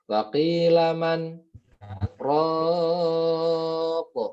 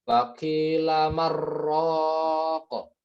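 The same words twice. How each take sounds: First: A brief break comes after 'man' without breathing. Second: 'Man' merges into 'raq' as 'marraq', no break. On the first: The speaker calls it right. "berhenti sejenak dengan niat melanjutkan tapi tanpa mengambil nafas" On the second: The speaker calls it wrong. "jadinya malah idgham bila gunnah ... bukan man tapi mar-ra"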